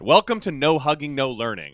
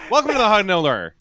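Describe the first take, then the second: First: Every word is clearly and fully pronounced. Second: The words are slurred and run together. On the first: The speaker calls it right. "I want to start enunciating that" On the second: The speaker calls it wrong. "I always, like, mumble through it"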